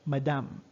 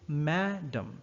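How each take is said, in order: First: The stress is on the last syllable. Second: The stress is on the first syllable. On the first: "in French" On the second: "the stress is on the first syllable"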